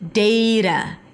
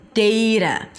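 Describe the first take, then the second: First: The first vowel sounds like the vowel in 'day'. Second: The same.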